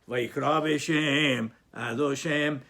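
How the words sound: There is a pause after the second word. "So you read together, Vayikra B'Shem"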